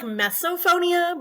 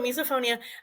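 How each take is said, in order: First: The first vowel is an 'e' sound. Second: The first vowel is an 'i' sound. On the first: The speaker calls it wrong. "you said like mesophonia" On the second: The speaker calls it right. "but it's miso with an I"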